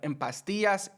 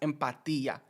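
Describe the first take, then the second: First: The final S sound is pronounced. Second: The final S sound is dropped. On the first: "Instead of en pastillas" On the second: "Notice how I cut the S"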